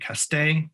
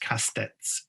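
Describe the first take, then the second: First: The final s sound is left silent. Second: The final s sound is pronounced. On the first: "Could be Castet" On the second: "I'm going to say it's Castets because sometimes you pronounce that"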